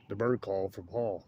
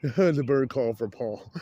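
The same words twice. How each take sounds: First: Said in the usual way. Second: "The bird call for Paul" drawn out slowly, louder, through laughter; laughing. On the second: Shown as a demonstration. Joking to a friend about a bird call for Paul, laughing and slow.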